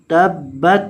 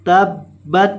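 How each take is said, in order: Both takes have the same delivery.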